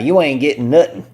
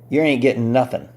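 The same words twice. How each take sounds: First: It is said in a Southern accent. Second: It is said in his usual accent.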